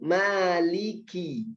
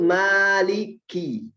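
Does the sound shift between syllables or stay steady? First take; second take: steady; shifts. First: The sound stays steady and light throughout. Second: The sound shifts up and down between syllables. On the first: The speaker calls it right. "cukup langsung maliki, nggak ada gerakan bibir lagi" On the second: The speaker calls it wrong. "nggak perlu maliki, nggak perlu naik turun naik turun lagi"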